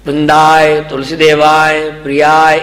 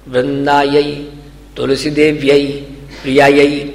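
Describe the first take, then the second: First: The words end in a plain 'aa' sound. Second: The words end in an 'ai' sound. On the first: The speaker calls it wrong. "यानी गलत है ये" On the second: The speaker calls it right. "ये शुद्ध है"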